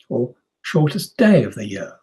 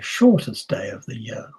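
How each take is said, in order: First: The main stress falls on "day". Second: The main stress falls on "shortest". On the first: The contrast is between days and nights. "That's possible if we're thinking about nights as well" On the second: The contrast is about how long days are. "that's possible if we're looking at lengths of days"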